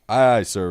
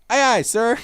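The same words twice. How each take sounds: First: It is said in a plain reading voice. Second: It is said in a chippy, young voice.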